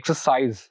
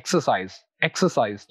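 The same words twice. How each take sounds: First: "exercise" as a verb, CISE strong; stress on later syllable. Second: "exercise" as a noun, EX strong; stress on first syllable. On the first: Teacher shows the verb "exercise", stressed late on CISE. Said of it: "second syllable पर stress देंगे". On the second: Teacher shows the noun "exercise", stressed on the first syllable. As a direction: stress EX in "exercise", then fall away. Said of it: "first syllable पर stress देंगे". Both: Shown as a demonstration.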